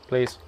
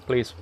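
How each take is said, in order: Both takes have the same delivery.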